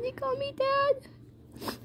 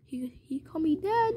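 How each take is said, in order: First: High, soft, slow murmur; very softly, pitched way up and drawn out; really quiet. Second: Hushed storytelling whisper; really quiet. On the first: Man moved at being called Dad, high and hushed. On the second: Man privately moved at being called Dad, whispering. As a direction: whisper it to yourself, voiceless. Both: Acted. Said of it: "really quietly".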